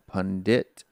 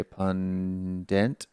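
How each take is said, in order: First: Pundit as "pun-DIT", clear short i; alternative pronunciation. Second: Pundit drawn out as "pun-DENT", rising; alternative pronunciation. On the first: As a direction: sound out pundit with a crisp final "dit". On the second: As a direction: stretch pundit slowly into "punnn-dent". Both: Shown as a demonstration. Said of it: "two or three ways we say it".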